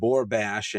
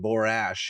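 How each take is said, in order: First: The name is said with a second B sound. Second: The name is said without a second B sound. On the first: This is the name as first written. "one of the villains was named Borbash" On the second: This is the name as the narrator read it. "didn't pronounce the B"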